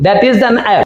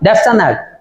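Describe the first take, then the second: First: "That is" is said as two full words. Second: "That is" is shortened to one syllable, "that's".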